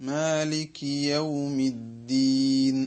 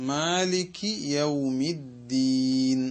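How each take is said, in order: Both takes have the same delivery.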